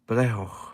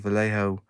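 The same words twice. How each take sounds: First: The name starts with a B sound. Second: The name starts with a V sound. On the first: This is how a Spanish speaker says it. "he says it with a B" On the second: This is how English speakers say it. "we English, we muller words every time, so we just say"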